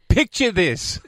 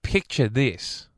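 First: It is said in a dramatic announcer voice. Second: It is said in a plain, ordinary speaking voice. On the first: The speaker calls it right. "There you go. There it is. That's what they pay you the good money for" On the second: The speaker calls it wrong. "it doesn't sound right"

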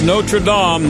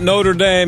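First: The name is said with a French pronunciation. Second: The name is said with an American pronunciation. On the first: It refers to the cathedral in Paris. The speaker calls it right. "We're talking about Notre Dame Cathedral in Paris" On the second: It refers to the university in Indiana. The speaker calls it wrong. "not South Bend, Indiana"

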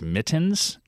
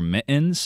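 First: The T is fully pronounced. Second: The T is replaced by a glottal stop. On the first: "instead of mittens" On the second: "you wear mittens"

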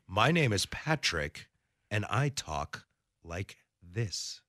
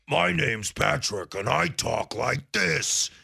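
First: Every word is crisply enunciated. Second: The words are slurred together.

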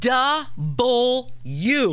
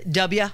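First: The letter name is said with every syllable. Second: The letter name is clipped and shortened. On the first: The speaker calls it right. "It's double U" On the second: The speaker calls it wrong. "A lot of people say W"

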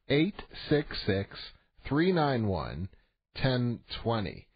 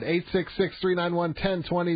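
First: The number is said more slowly. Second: The number is said at a quicker pace.

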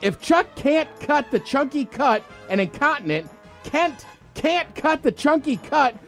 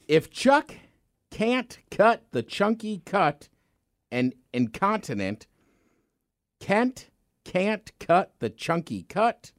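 First: It is said fast. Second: It is said at a normal speed.

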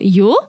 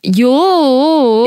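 First: The pitch rises at the end, questioning. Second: It is drawn out in a whining, pleading tone. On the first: The speaker is asking something. "if you do yo, that's a question" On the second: The speaker is begging or complaining. "a pleading. Whining"

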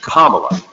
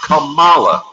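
First: The stress is on the first syllable. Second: The stress is on the second syllable. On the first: The speaker calls it right. "Accent on the first syllable" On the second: The speaker calls it wrong. "Not Kamala"

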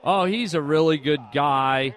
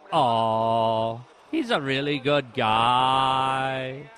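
First: The words are said at a normal, even pace. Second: The words are drawn out with a lilting cadence. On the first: "Let's say I said" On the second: "the way things drag on"

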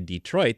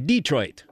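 First: The stress is on the second syllable. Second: The stress is on the first syllable.

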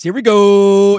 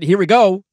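First: The phrase is drawn out slowly. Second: The phrase is said quickly, not drawn out.

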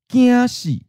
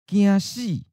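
First: The emphasis falls on the first syllable. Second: The emphasis falls on the second syllable. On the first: Being scared to death. "The emphasis is on 怕" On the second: Being afraid of dying. "The emphasis is on 死"

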